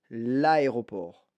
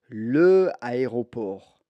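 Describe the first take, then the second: First: The vowel of 'le' is dropped before 'aéroport'. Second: The vowel of 'le' is kept before 'aéroport'. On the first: The speaker calls it right. "Je vais faire une élision" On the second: The speaker calls it wrong. "je ne peux pas dire le aéroport"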